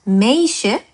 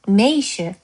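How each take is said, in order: First: The stress is on the last syllable. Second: The stress is on the first syllable. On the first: The speaker calls it wrong. "meisje가 아니고" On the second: The speaker calls it right. "여기도 마찬가지죠"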